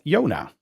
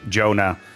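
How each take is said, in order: First: The name is said with a Dutch pronunciation. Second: The name is said with an English pronunciation. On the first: "in Dutch, it's called Jona" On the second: "It's actually pronounced in English all the time for me"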